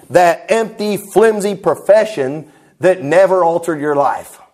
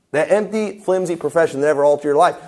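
First: Slow, weighty imitation of a preacher's line; slow quoted preaching. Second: Said in the usual way. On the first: Preacher quoting another man's sermon line, slow and declamatory. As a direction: stretch it out phrase by phrase, oratorically.

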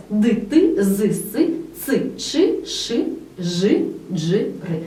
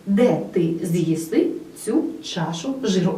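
First: Slow, spelled-out repeat of the rhyme. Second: Said in the usual way. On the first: Shown as a demonstration. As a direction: read the rhyme again slowly, letter by letter. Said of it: "Отже, ще раз". (повільно, по складах) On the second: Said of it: "словесна формула якого".

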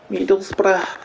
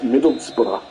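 First: High-pitched stab at a Scouse accent; attempted regional accent, really Scouse, pitched up; mock Scouse accent. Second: Said in the usual way. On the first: Shown as a demonstration. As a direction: say Middlesbrough high, in badly faked Scouse. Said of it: "that's not the accent, that's actually mainly Scouse".

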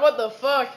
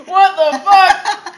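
First: Said in the usual way. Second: Slow, loud laughing what the fuck. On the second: Real, not acted. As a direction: crack up on the words. Last take laughing.

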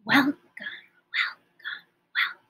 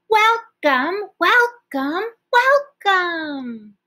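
First: Softly said welcomes; hushed welcomes; quiet. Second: Welcomes called out high and loud; as loud as we can. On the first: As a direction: say it as quietly as you can. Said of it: "as quiet as we can". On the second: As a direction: shout it out to the class. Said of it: "as loud as we can". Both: Shown as a demonstration.

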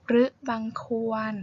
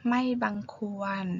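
First: รึบังควร with short รึ; รึ said as a quick rɯ; poetic form. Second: Said in the usual way. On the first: Shown as a demonstration. Teacher reads poetic รึบังควร and then explains it. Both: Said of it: "หมายความว่า".

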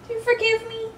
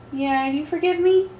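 First: Much higher and softer coo. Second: Cooing. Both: Real, not acted. Cooing to the cat.

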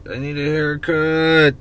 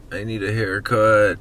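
First: Higher, louder, drawn out; whiny exaggerated complaint. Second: Said in the usual way. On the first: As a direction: whine it like you're fed up.

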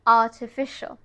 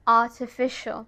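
No difference in how they are said.

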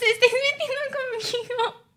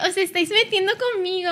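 First: Higher-pitched, put-upon wail; whiny complaint. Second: Said in the usual way. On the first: Real, not acted. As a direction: whine that they are picking on you. Repeats the complaint as a whine.

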